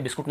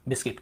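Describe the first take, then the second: First: बिस्कुट with an U in the last syllable; wrong pronunciation. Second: बिस्किट with a short I in the last syllable; correct pronunciation. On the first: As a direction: say बिस्कुट, the Hindi way, ending in -kut. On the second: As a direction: say बिस्किट softly, ending in -kit. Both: Shown as a demonstration. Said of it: "बिस्कुट नहीं होता".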